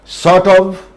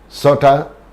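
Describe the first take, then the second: First: The word 'of' is said in full. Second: The word 'of' is reduced to a weak 'a'.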